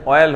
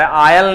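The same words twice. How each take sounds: First: ऑयल starting on rounded "o"; corrected pronunciation. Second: आयल starting on open "aa"; UP-style pronunciation. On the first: Shown as a demonstration. Teacher giving his student the correction, ऑयल with "o". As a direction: say "o-yal" as the correction. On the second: Retold or imitated. Teacher telling his student what is wrong, आयल with "aa". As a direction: say "aa-yal", the UP way. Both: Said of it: "आयल नहीं होता भाई मेरे".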